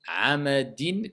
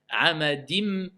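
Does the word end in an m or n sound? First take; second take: n sound; m sound. First: The word ends with an n sound. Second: The word ends with an m sound. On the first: "Comment je vais le prononcer?" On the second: "C'est la règle de l'assimilation"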